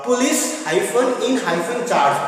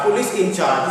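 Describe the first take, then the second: First: Police hyphen in hyphen charge, with the word hyphen spoken between each part; spelled out with hyphens. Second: Said in the usual way. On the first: Shown as a demonstration. Teacher spells the compound out for students, saying each hyphen aloud.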